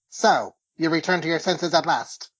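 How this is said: It is spoken in a flat, mechanical robot voice. "that sounds more like a robot voice"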